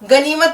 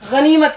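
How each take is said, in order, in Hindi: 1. इसकी शुरुआत साधारण, सख़्त 'g' की आवाज़ से होती है। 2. इसकी शुरुआत गले से निकलने वाली खुरदरी आवाज़ से होती है। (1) "गनीमत नहीं कहना है" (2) "ऐसे जरा हलक से आवाज निकालनी है"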